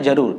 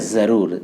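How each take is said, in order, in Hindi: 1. शब्द 'j' की ध्वनि से शुरू होता है। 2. शब्द 'z' की ध्वनि से शुरू होता है। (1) "अभी नुक्ता नहीं है तो शब्द है जरूर" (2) "नुक्ता लगा दूं ऐसे, तो ये हो गया जरूर"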